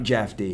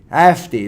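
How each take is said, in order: First: The name begins with a J sound. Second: The name begins with an H sound. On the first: The speaker calls it wrong. "Not Jeffy" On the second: The speaker calls it right. "J is pronounced as hey"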